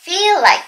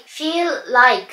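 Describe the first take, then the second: First: "feel like" joined on one shared l; linked pronunciation. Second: "feel like" slowly, as two separate words; slow "feel like" down and keep both l's apart. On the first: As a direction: run "feel like" together as a single word, "fee-like". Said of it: "っていう風に聞こえます". (「feel like」のLをつなげて一語のように発音) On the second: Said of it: "じゃなくて". (「feel like」をゆっくり二語に分けて発音) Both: Shown as a demonstration.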